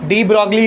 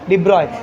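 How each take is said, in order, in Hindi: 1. इसे g की आवाज़ के साथ बोला जाता है, 'de brog-lee'। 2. इसे g की आवाज़ के बिना बोला जाता है, 'de-broy'। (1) "डी ब्रॉगली नहीं" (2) "जी साइलेंट है उसमें"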